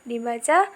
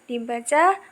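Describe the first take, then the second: No difference in how they are said.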